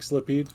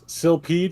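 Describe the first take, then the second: First: The word begins with the sound sli. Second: The word begins with the sound sil. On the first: The speaker calls it wrong. "everyone they see it the first time they go Slipede" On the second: The speaker calls it right. "it's S I L"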